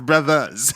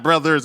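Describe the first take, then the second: First: The word ends with an 'ah' sound. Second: The word ends with an 'er' r sound. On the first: The speaker calls it right. "you drop the R, the er and add an a" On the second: The speaker calls it wrong. "It's not brothers"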